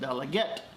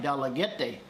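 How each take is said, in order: First: The name ends on a final consonant sound. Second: The name ends with an extra vowel syllable. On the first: This is how local people say it. The speaker calls it right. "but they pronounce it Dalaget" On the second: This is how the written name looks. The speaker calls it wrong. "It looks like Dalagete"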